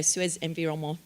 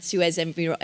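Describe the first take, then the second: First: Environnement tried in a French accent, nasal final vowel. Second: Said in the usual way. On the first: Shown as a demonstration. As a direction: have a go at Suez Environnement the French way. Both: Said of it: "my French accent is terrible".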